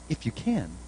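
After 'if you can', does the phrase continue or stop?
stops. The phrase stops as a complete retort. The listener's doubt is being challenged. The speaker calls it right. "I think he said"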